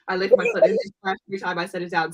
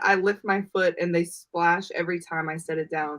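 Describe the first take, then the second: First: The sentence is read very fast. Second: The sentence is read at a normal speed.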